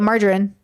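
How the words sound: It is said with an American pronunciation. "That's how I was taught to say it"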